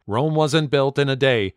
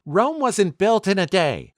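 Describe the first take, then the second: First: Said in the usual way. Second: Mock yell, pitched way up and slower; narrated yell. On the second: A narrator's reading. Girlfriend snapping back about going to school, mock yell. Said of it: "and she yelled".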